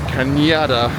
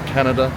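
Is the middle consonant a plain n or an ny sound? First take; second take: ny; n. First: The middle consonant is an ny sound. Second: The middle consonant is a plain n sound. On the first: The speaker calls it right. "pronounced like a nya sound" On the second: The speaker calls it wrong. "not Canada. Definitely not that"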